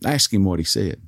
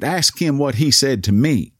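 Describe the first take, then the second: First: Restrained demand in the usual pitch; a touch of indignation, held back. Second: Higher, more insistent demand; indignant demand. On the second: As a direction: insist as an offended cashier, mildly heated. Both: Retold or imitated. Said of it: "she demanded".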